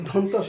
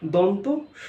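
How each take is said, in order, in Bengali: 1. দুটি অংশ ফাঁক ছাড়াই একসাথে বলা হয়। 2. দুটি অংশের মাঝে একটু ফাঁক থাকে। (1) "আমরা এক করে ফেলছি, অর্থাৎ আমরা একটু গ্যাপ দিতে চাই না" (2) "মাঝখানে একটু গ্যাপ দেওয়ার"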